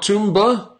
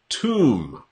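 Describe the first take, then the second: First: A 'b' sound is heard at the end. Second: No 'b' sound is heard at the end. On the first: The speaker calls it wrong. "Not Toomba" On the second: The speaker calls it right. "There's no B pronounced in this word"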